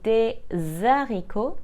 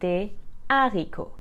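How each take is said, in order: First: The s links into the next word as z. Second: The two words stay apart with no z. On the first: The speaker calls it wrong. "we don't say des haricots" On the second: The speaker calls it right. "the H is considered aspirated and not silent. So we must say des haricots"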